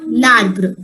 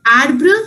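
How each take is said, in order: First: "l'arbre" as one word, starting on L; article attached. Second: "Arbre" starting straight on the open ah; French word alone. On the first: Teacher contrasting it with the bare word, joined-up "l'arbre". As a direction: say "l'arbre" with the L run into the vowel. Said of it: "along with L apostrophe". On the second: Teacher contrasting it with the article form, careful "Arbre". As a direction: say "Arbre" by itself, with no L in front. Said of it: "R E is pronounced as". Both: Shown as a demonstration.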